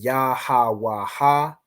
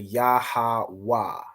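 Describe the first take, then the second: First: The final two syllables are pronounced separately. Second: The final two syllables are joined into one. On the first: The speaker calls it wrong. "instead of saying" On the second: The speaker calls it right. "it's a Wa and a Ha joined to make Wa"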